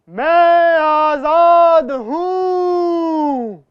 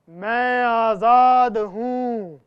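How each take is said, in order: First: It is said very loudly. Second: It is said at a medium, louder volume.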